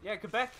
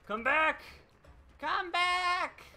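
First: Said in the usual way. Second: Put-on high, wailing cry of a crazy old mountain hermit. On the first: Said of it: "crazy old mountain hermit". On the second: Killer calling after fleeing survivors in hermit voice. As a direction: yell it like a half-mad hermit on a mountain. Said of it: "crazy old mountain hermit in the Creeper episode".

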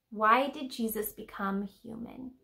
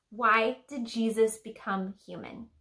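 The two takes are said the same way.

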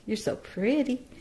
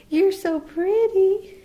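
First: Sweet praise. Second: High pet talk. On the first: Owner gently praising her baby bird, cooing. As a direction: coo it gently to the chick. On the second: Owner gushing over her baby bird in high, slow pet talk. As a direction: stretch it up high like praising a pet. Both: Real, not acted.

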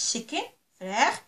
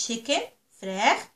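Both takes have the same delivery.

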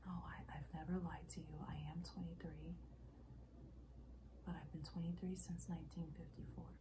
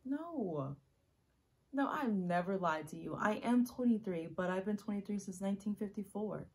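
First: Soft, hushed and restrained; subdued confession. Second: Loud, insistent confession; urgent, full-voiced admission; emphatic protest. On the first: Acted. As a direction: confess it quietly, holding back. Acted monologue, subdued first take. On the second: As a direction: insist on it forcefully. Acted monologue, emphatic second take.

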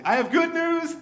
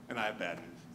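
First: Much higher and louder announcement; loud declaration. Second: Much lower and softer, ominous drop; grim bad news. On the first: Retold or imitated. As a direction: boom it out like an eager herald. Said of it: "declares loudly". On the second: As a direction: let the voice sink for the bad news.

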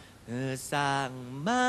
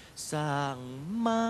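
First: Slow, sung-out "สร้างมา" with a plain mid-tone "มา"; correct lyric pronunciation. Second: "สร้าง มา" with "มา" jumping sharply high like "ม้า" (horse); wrong tone demo. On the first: Judge showing contestants the right way, slowly sung. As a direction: stretch "เออ สร้างมา" out gently, keeping "มา" level and mid. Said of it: "ก็เป็นอย่างนี้นะครับ". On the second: Judge warning singers of a tone slip, mock wrong take. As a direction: sing "สร้าง" then leap way up on "มา" so it sounds like "ม้า". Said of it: "คือกลายเป็น เอ่อ build a horse". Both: Shown as a demonstration.

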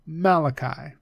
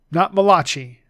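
First: "Malachi" as MAL-uh-kai, stress first; "Malachi" ending in kai; correct Malachi. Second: "Malachi" said mah-LAH-chee, the wrong way; mock wrong "Malachi" with a ch sound. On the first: Teacher giving the right "Malachi". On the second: Teacher showing how not to say "Malachi". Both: Shown as a demonstration.

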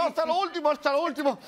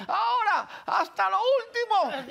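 First: Said in the usual way. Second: High, drawn-out mock command; slow final push like a coach; imitated yelled orders. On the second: Tete pushes him to the last lap, imitated yelling. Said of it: "me las grita a mí".

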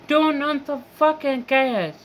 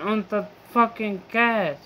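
First: Higher-pitched frustrated demand with TURN hit hard; exasperated yell. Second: Said in the usual way. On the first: Real, not acted. Venting at the gas company, exasperated high yell. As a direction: snap it out like a fed-up outburst.

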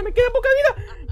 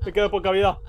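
First: Much higher, laughing panicky whine; squealing laugh. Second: Said in the usual way. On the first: Real, not acted. Low health in horror game.

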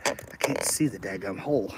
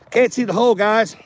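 First: Low, much softer grumble to himself; frustrated mutter. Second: Exasperated call-out. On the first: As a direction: mutter it under your breath at the screw. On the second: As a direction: throw the frustration out to the audience. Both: Real, not acted. Struggling to fit a screw.

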